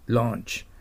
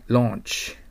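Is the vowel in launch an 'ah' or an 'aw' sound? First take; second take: aw; aw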